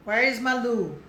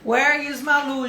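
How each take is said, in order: First: Said in the usual way. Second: Slow, stressed where; slow model question. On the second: Shown as a demonstration. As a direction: lean on where, slowly. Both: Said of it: "Vamos lá, mais uma".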